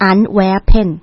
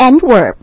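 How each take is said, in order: First: Antwerpen said the local way, three syllables; Belgian pronunciation. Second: Antwerp said the English way, two syllables; English-style "Antwerp", ending on the p; English pronunciation. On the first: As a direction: say "Antwerpen" slowly as an-WER-pen. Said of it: "ภาษาเบลเยียมเขาเองนะคะ เขาจะอ่านว่า". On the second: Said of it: "ถ้าออกเสียงเป็นภาษาอังกฤษเนี่ยเขาเรียกว่า". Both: Shown as a demonstration.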